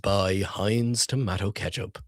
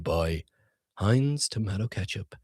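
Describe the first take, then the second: First: The voice is even, low and restrained. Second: The voice is high, swooping and very expressive. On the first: "I should always just talk like this" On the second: "I have this type of inflection as well"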